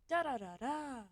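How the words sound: The syllables are said in a calm, relaxed tone. The speaker is truly at peace. The speaker calls it right. "That's peaceful"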